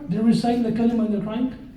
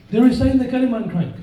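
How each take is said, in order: First: "They're reciting the kalima and they're crying?" asked with a rising end on "crying"; asking question. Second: "They're reciting the kalima and crying." said fast and louder with a falling end; firm statement. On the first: Preacher asking the congregation whether they have seen converts cry, questioning. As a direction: pose it as a real question, lift "crying" at the end. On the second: Preacher answering his own question about converts, firm statement. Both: Shown as a demonstration. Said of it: "have you ever seen this before?".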